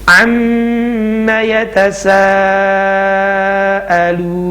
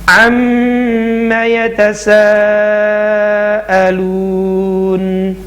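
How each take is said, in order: The two takes are said the same way.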